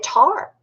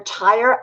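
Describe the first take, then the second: First: It is said in a Southern accent. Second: It is said in a standard accent.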